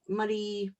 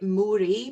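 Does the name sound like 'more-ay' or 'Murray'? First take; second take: Murray; more-ay. First: It is pronounced like 'Murray'. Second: It is pronounced like 'more-ay'. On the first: The speaker calls it right. "but it's actually Murray" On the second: The speaker calls it wrong. "you might pronounce it Moray by mistake"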